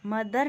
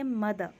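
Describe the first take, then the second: First: मदर with the final r rolled; मदर ending in a sounded "r"; wrong pronunciation. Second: मदर ending in "-də", no r; मदर with the r dropped; silent r. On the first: Teacher shows students the wrong मदर with the r. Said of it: "मदर नहीं बोलेंगे". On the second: Teacher models the correct मदर for students. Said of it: "आर यहाँ पर silent रहेगा". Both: Shown as a demonstration.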